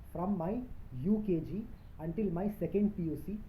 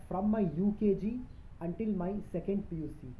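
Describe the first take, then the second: No difference in how they are said.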